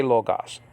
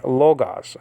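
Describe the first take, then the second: First: "logos" as English speakers say it, lo and then gos; "logos" split into LO and GOS, said slowly as the bad example; wrong pronunciation. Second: "Logos." said as one Greek word with a falling tune, not split in two; correct pronunciation. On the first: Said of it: "never say logos". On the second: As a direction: model the right "Logos." smoothly as one word. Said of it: "us English people just say lo and then gos". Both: Shown as a demonstration.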